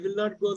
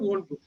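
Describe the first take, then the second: First: The negative is said as two full words. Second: The negative is contracted into one short word. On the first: "I will not go" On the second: "தான் won't go"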